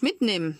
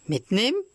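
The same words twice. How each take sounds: First: Said in the usual way. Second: Higher echo, rising at the end; startled question. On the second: Acted. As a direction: throw it back as an alarmed question. Puppet echoes hare's word as question. (erschrockene Rückfrage, hoch ansteigend)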